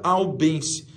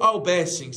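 First: The word ends in a short -ense sound. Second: The word ends in a longer -essens sound. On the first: This is the common everyday name. The speaker calls it wrong. "todo mundo chama de albense" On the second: This is the proper botanical name. The speaker calls it right. "Que é o correto"

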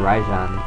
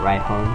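First: The j is said like an English j. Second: The j is said like an h sound. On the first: "Or I could just say Rajon" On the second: "I'm thinking it might be Spanish, so I should pronounce it Rihon"

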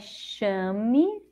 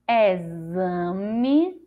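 First: The x is pronounced as an sh sound. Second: The x is pronounced as a z sound. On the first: "com som de C H" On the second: "com som de Z"

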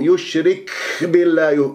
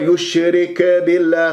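First: The k is released with heavy, exaggerated breath. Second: The k is released with a bouncing echo. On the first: "يبالغ في الهمس" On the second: "قلقلها البعض"

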